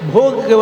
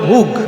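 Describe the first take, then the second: First: The vowel is an o sound. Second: The vowel is a u sound. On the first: This is the written, standard form of the word. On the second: This is how people from the Dhaka area say it.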